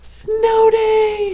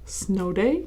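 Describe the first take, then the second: First: It sounds excited, like a cheer. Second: It sounds questioning, with a rise at the end. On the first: The speaker is certain it is a snow day. "she cheered. ... and it definitely is" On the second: The speaker wonders whether it is a snow day. "she asked. ... I wonder if it's snow day"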